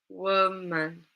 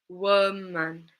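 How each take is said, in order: No difference in how they are said.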